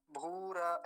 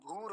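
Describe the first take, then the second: First: भूरा as two syllables, bhū-ra; wrong full र. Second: भूर as one syllable, bhūr; half र. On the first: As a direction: add an a after the र in भूरा. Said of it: "ऐसा नहीं होता". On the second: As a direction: stop on the र of भूर. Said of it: "भूर होता है". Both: Shown as a demonstration.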